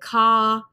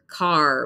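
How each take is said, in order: First: The final R sound is dropped. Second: The final R sound is clearly pronounced. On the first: This is the standard British form. "the R at the end of the word, you don't hear it" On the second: This is the standard American form. "we hear the R"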